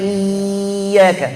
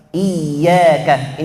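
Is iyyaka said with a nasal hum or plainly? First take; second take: nasal; plain. First: The word is said with a nasal hum added. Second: The word is said plainly without a nasal hum. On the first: The speaker calls it wrong. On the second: The speaker calls it right.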